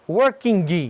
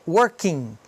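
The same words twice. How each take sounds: First: The final G is sounded with an added 'i'. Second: The word ends with no G or extra vowel. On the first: The speaker calls it wrong. "Então não é working" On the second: The speaker calls it right. "Não tem I nem G. É working"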